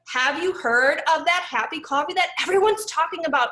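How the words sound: It is said with lively excitement.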